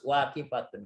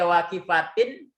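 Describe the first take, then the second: First: The word ends in an un sound. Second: The word ends in an in sound. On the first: The speaker calls it right. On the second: The speaker calls it wrong. "Enggak boleh dibaca"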